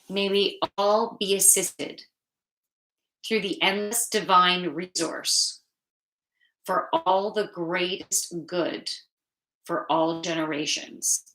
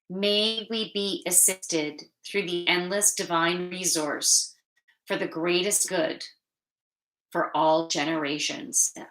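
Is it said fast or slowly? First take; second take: slowly; fast. First: It is said more slowly. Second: It is said too fast.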